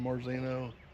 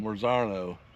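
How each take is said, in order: First: The middle vowel sounds like 'ee'. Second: The middle vowel sounds like 'ah'. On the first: The speaker calls it wrong. "Is that how you say it?" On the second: The speaker calls it right.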